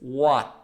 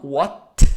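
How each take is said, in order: First: The final T is stopped without releasing air. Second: The final T is released with air. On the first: The speaker calls it right. "it's what. I'm stopping the air" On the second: The speaker calls it wrong. "it's not what"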